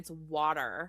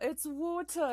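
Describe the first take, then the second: First: It is said in an American accent. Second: It is said in a British accent.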